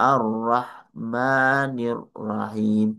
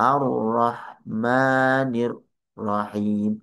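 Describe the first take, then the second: Both takes have the same delivery.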